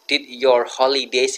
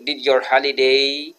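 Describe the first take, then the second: First: "holidays" said with a clear final s sound; "did your holidays" ending in a hissed s; with plural s. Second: "holiday" said without the final s, slip before correcting; "did your holiday" with holiday ending on the vowel, no s; missing plural s. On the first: Teacher correcting her own slip: "holidays" with the s. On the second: Teacher slips, about to correct herself: "holiday" without s. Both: Shown as a demonstration. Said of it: "ini kurang S ya".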